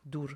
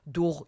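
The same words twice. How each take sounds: First: דור said "dur", ending in an r; plain r ending. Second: דור said "dugh", ending far back in the throat; guttural gh ending. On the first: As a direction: say דור with a final r, the word for far. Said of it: "שזה רחוק". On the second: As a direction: say דור with a throaty final gh, the yoghurt word. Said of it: "דור יוגורט". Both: Shown as a demonstration.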